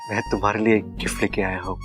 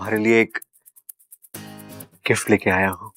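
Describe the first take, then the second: First: It is said in a loving, romantic way. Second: It is said in a fearful, timid way.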